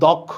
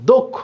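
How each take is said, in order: First: The first vowel sounds like an open 'a'. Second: The first vowel sounds like an 'o'. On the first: The speaker calls it wrong. "এটা আমরা বলি দক্ষ, কিন্তু আসলে কি দক্ষ না" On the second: The speaker calls it right. "এটা হচ্ছে দক্ষ"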